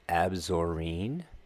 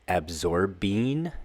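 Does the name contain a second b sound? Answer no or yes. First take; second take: no; yes. First: The name has only one b sound. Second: The name has a second b sound. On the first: The speaker calls it right. "There's no second B" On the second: The speaker calls it wrong. "That's not the correct way to say the word"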